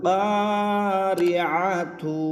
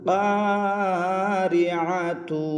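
No difference in how they are said.

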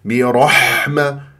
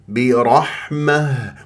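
First: The h sound is harsh with a raspy scrape. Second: The h sound is soft and gentle, no rasp. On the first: The speaker calls it wrong. "هذا غلط" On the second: The speaker calls it right. "رقيقة لطيفة"

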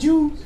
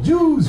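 First: The word is said in a mild, harmless tone. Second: The word is said in a harsh, hostile tone. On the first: The speaker means no hostility. The speaker calls it right. "I said it that way so it didn't sound hateful" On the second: The speaker sounds hostile toward the group. The speaker calls it wrong. "It'd be different"

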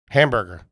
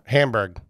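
First: The final -er syllable is kept. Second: The final -er syllable is dropped. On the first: This is the standard form of the word. "They drop off the er?" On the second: This is how the family in that area says it. "Or a hamburg"

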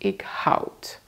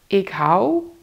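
First: The word ends with an audible d sound. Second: The word ends without a final d sound. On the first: This is a very formal form. "When you pronounce ik houd, that's only when it's super formal" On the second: This is the usual, informal form. "just say ik hou without the D sound"

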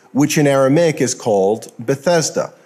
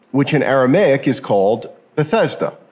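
The two takes are said the same way.

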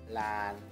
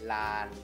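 No difference in how they are said.

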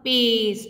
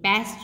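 First: The vowel is said long. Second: The vowel is said short. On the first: The speaker calls it right. "last में e silent रहता है but इसकी sound को long बना देता है" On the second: The speaker calls it wrong. "ये paste नहीं होता"

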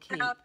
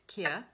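First: The name is said as "keep". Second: The name is said as "kia". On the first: The speaker calls it wrong. "It looks like Keep on the packaging" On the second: The speaker calls it right. "Pronounced Kia"

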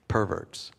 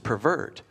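First: The stress is on the first syllable. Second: The stress is on the second syllable. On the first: It names a sexually twisted person. The speaker calls it wrong. "the first way we want to pronounce that is perverts" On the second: It means to distort or corrupt something. The speaker calls it right. "But the word is pervert"

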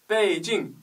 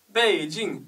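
No difference in how they are said.

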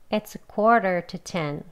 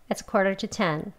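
First: The sentence is said slowly. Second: The sentence is said quickly. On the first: "천천히 하겠습니다" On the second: "빨리도 하겠습니다"

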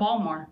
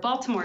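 First: It is said in a clipped local accent. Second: It is said in a careful standard pronunciation.

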